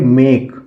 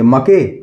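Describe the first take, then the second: First: The vowel is an 'ay' sound. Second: The vowel is a short 'a' sound. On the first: The speaker calls it right. "हम उसको pronounce करेंगे ए से" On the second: The speaker calls it wrong. "ना हम अ से pronounce कर सकते हैं"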